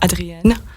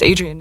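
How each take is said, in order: First: The name is said with a French pronunciation. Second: The name is said with an English pronunciation. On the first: The speaker calls it wrong. "and not Adrienne" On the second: The speaker calls it right. "In English, we say Adrienne"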